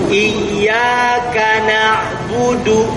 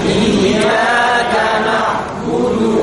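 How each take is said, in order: The two takes are said the same way.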